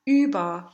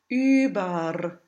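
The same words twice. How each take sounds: First: The ending is a vowel with no rolled R. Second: The ending is a schwa with a rolled R. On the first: "This upside-down bright A can also replace the combination ER at the end of a word" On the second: "If you choose to roll the R for vocal reasons, then the transcription will become schwa R"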